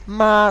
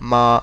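First: The flat syllable is said at a high pitch. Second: The flat syllable is said at a low pitch. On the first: "like very high pitch" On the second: "If you have a low voice, you can also say ma"

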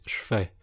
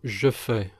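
First: A vowel is dropped, shortening the words. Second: Both words are pronounced fully with every vowel.

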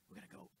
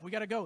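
First: It is said softly and slowly, almost whispered. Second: It is said loudly and urgently, with force.

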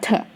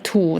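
First: The vowel is reduced to a schwa. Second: The vowel is full and clear. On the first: The word is inside a sentence. "แต่ถ้ามันอยู่ในประโยคจะอ่านว่า" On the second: The word stands alone. "ถ้ามันอยู่ตัวของมันเดียวๆเขาก็จะอ่านว่า"

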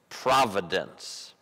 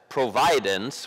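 First: The stress is on the first syllable. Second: The stress is on the second syllable. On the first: The speaker calls it right. "we say that's providence" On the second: The speaker calls it wrong. "we don't say that's providence"

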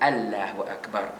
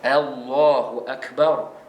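First: The L of Allah is light and thin. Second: The L of Allah is heavy and thick. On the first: The speaker calls it wrong. "Kita tak pernah pun sebut" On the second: The speaker calls it right. "kita bunyikannya sebagai"

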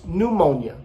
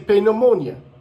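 First: The P at the start is silent. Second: The P at the start is pronounced. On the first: "we don't pronounce the P in English, so it's pneumonia" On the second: "in Portuguese, you would say pneumonia"

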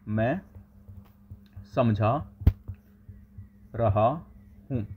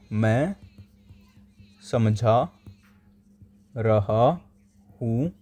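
First: The voice sounds distant with more room echo. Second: The voice sounds close, clear and crisp. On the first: The speaker calls it wrong. "जब मेरा tablet दूर था" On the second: The speaker calls it right. "मैंने पास कर लिया"

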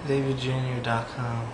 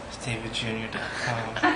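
First: It is said in a plain, ordinary voice. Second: It is said in a sultry, sexy voice.

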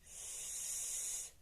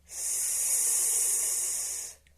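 First: The sound is said quietly. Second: The sound is said loudly. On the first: "Спочатку «с»" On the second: "і голосно"

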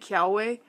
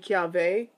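First: The middle consonant is a W sound. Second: The middle consonant is a V sound. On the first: This is how many people commonly say it. "I know people do say Kiave" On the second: This follows the original language's sound rule. "it should be Kiave"

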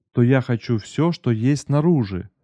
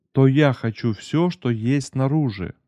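No difference in how they are said.

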